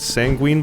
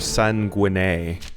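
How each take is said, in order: First: The word is pronounced in a plain, ordinary way. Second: The word is pronounced in a fancy, elaborate way.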